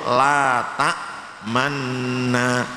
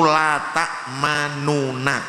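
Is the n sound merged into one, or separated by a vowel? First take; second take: merged; separated. First: The two n sounds merge into one long n. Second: The two n sounds are separated by a vowel. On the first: This is how the word is read in the Quran. "lafalnya di Al-Quran hanya satu" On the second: This is the word's original underlying form. "Ini aslinya itu la ta'manuna"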